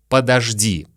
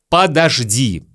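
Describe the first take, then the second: Both takes have the same delivery.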